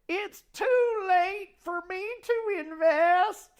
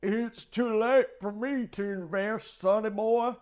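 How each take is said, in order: First: It is said in an old lady voice. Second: It is said in an old man voice.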